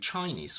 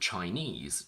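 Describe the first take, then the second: First: The stress is on the first syllable. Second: The stress is on the last syllable. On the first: The word comes before a noun. "the stress shifts to the front" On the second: The word stands on its own. "on their own have their stress on the last syllable"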